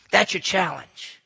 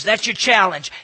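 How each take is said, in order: First: Said slowly, letting challenge sink in; slow, weighty challenge. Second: Louder punch on challenge. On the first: Preacher repeating the challenge, slow and weighty. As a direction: lay it down slowly and heavily. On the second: Preacher daring the young listeners, loud declaration. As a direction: throw the challenge out to them. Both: Acted.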